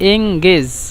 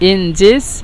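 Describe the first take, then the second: First: The middle consonant is a hard g sound. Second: The middle consonant is a soft j sound. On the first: This is the Egyptian dialect form. "মিশরীয়রা জিমকে গয়ন উচ্চারণ করে" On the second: This is the original standard form. "মূলত এনজেজ"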